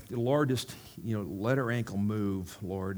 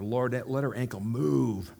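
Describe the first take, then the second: First: Said in the usual way. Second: Slower, slightly firmer retold prayer; a little louder. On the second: Preacher praying for the lady's ankle, a little louder and slower. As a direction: pray it a touch louder, drawing it out. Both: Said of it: "the second time I said a little louder".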